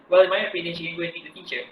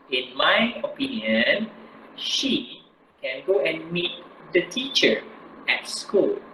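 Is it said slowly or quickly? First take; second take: quickly; slowly. First: It is said quickly without pauses. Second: It is said slowly with pauses.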